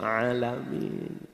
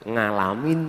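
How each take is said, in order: First: It begins with a plain vowel, East Java style. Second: It begins with an 'ng' sound, Central Java style.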